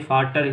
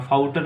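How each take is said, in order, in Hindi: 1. पहला स्वर एक सादा 'ah' ध्वनि है। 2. पहला स्वर एक फिसलता हुआ 'ow' ध्वनि है। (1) "फाटर ही बोला जाएगा" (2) "फाउटर नहीं"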